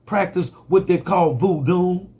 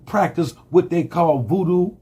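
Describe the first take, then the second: No difference in how they are said.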